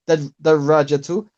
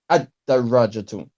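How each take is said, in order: First: The word starts directly with a doubled d. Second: The word starts with a glottal 'a' sound. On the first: The speaker calls it right. "So here we would say ahadihi darajatu" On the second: The speaker calls it wrong. "You've pronounced the hamza to wasl. You said ah"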